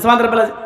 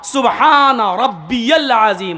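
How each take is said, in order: First: It is said hurriedly, with words run together. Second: It is said slowly, each word clearly separated.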